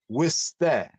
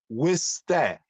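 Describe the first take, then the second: The two takes are said the same way.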